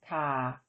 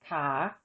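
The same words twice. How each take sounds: First: The syllable is said with a low tone. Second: The syllable is said with a rising tone. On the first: "With tone mark one, the tone is low" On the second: "the tone of an unmarked live syllable with no written tone mark is rising"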